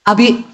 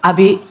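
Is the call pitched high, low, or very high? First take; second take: high; low. First: It is called at a somewhat raised pitch. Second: It is called at a normal, low pitch.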